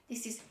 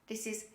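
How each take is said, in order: Both takes have the same delivery.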